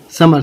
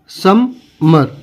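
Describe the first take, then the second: First: Said in the usual way. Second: "समर" very slow, sum... mer; broken into syllables. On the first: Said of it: "यानी समर". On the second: Shown as a demonstration. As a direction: pause in the middle of "समर". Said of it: "तो इसको क्या पढ़ेंगे?".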